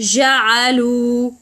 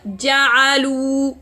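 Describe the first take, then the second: First: The j sound runs on without full closure. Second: The j sound is fully closed and cut off. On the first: The speaker calls it wrong. "allow running sound, and that leads the gene to be so weak" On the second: The speaker calls it right. "Close the articulation point so that the sound cut"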